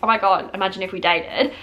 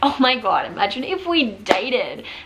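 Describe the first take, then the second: First: It is said in a serious, earnest tone. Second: It is said in a playful, jokey tone.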